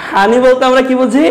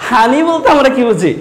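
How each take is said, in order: Both takes have the same delivery.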